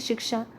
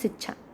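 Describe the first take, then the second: First: It is pronounced in the standard Hindi form. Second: It is pronounced in a colloquial dialect form. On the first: "भाषा में अगर कहें" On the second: "बोली में कहें तो"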